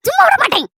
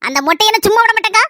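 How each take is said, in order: First: Sharply higher, repeating the threat; vow. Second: Said in the usual way. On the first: Acted. Daughter vows revenge on the bald woman, sharply higher. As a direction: spit the threat out again, higher.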